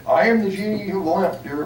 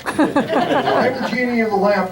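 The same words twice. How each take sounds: First: Lightly voiced genie, first try; a hint of a genie announcing himself. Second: High, slow genie voice through a laugh. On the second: Acted. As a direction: draw it out like a grand genie. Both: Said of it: "It worked better down there".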